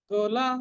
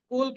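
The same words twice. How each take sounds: First: The final l is followed by a vowel. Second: The final l is cut short with no vowel. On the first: The speaker calls it right. "কুল লটা পূর্ণ" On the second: The speaker calls it wrong. "কুল কিন্তু নয়"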